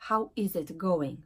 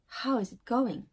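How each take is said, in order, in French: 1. Le verbe est prononcé en entier, sans réduction. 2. Le verbe se contracte sur le mot qui précède. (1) "Et pas" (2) "tu vas dire"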